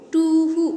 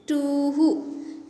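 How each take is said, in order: First: Too who called out higher and louder, like an owl; owl call demo. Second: Said in the usual way. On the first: Shown as a demonstration. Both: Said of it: "What is the pronunciation of this word?".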